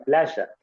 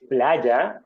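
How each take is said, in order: First: The middle consonant is a strident sh sound. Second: The middle consonant is a soft y sound. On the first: "va a decir playa" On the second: "en vez de decir, no sé, playa"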